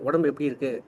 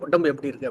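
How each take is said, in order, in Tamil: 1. இந்தக் கேள்வி அன்பாகவும் அக்கறையுடனும் ஒலிக்கிறது. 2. இந்தக் கேள்வி மிரட்டுவது போல் இருக்கிறது. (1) "அது நலம் விசாரிக்குது" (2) "உத வேணுமா அப்படிங்கிறதுக்காக கேட்கறது"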